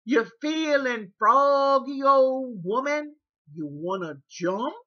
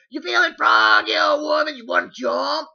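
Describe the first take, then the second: First: Taunting caregiver. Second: Loud, high, menacing challenge; taunting shout. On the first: Caregiver threatening a fight. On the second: Caregiver shouting a fight challenge at old woman, loud and menacing. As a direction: yell the threat in her face. Caregiver repeating threat louder. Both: Retold or imitated.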